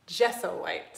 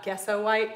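First: "gesso" with a soft G, like jesso; corrected soft G. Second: "gesso" with a hard G, like guesso; wrong hard G. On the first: Painter correcting the name, "gesso" said jess-oh. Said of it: "start working on those pronunciations". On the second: Painter showing the mistaken name, "gesso" said guess-oh. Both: Shown as a demonstration.

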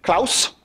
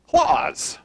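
First: German-accented Klaus, rhyming with house, crisp s. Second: Said in the usual way. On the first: Shown as a demonstration. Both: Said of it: "if you were to say it with a German accent".

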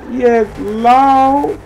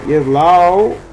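First: Much higher, louder hype call; higher excited cheer. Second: Raised, louder hype call; excited cheer. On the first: Showing off the car to viewers, higher hyped cheer. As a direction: push it up into a hyped shout. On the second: Showing off the car to viewers, hyped cheer. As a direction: call it out pumped up. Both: Real, not acted.

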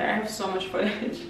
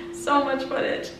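First: Said in the usual way. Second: Laughing. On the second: Real, not acted. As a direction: repeat it through a laugh, higher. Laughing repeat of previous line.

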